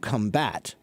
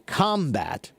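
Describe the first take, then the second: First: The stress is on the second syllable. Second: The stress is on the first syllable. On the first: It is a verb meaning to fight. "it's a verb and it means to fight" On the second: It is a noun meaning fighting. "that's a noun. It means fighting"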